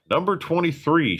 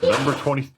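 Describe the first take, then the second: First: Louder. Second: Said in the usual way. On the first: Real, not acted. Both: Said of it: "That wasn't loud enough".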